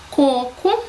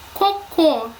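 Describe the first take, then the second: First: "coco" with the first co stressed; teacher's contrast word, "coco" stressed at the start; stress on first syllable. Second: "Cocô" with the final cô stressed; teacher's contrast word, "Cocô" stressed at the end; stress on last syllable. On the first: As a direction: hit the opening syllable of "coco", let the second drop. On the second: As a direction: land on the second syllable of "Cocô". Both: Shown as a demonstration. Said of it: "se não estiverem acentuadas".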